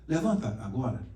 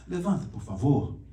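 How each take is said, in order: First: A curt, direct order to get up now; blunt command. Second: A gentler, polite plea to get up; softened request. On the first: Teacher demonstrating a blunt command to the class. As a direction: say it like a plain imperative, no softening. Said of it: "Viu a entonação como é que muda?". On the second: Teacher showing students the polite, softened request. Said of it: "Aí muda a entonação". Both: Shown as a demonstration.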